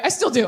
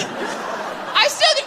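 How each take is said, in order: First: Said in the usual way. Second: Much higher and slow, breathy through laughter; high laughing redo. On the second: Shown as a demonstration. Re-saying her odd line to the crowd, high and laughing. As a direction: squeak it out while laughing. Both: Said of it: "I don't know why I said it like that".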